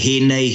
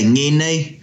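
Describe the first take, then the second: First: It is said the Taranaki way, starting with h. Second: It is said the Tainui way, starting with ng.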